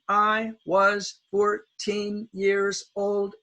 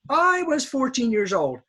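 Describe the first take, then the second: First: The word I is quick and unstressed. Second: The word I is loud and stressed. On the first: The speaker calls it right. "we say them quickly" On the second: The speaker calls it wrong. "my Japanese students will often emphasize I"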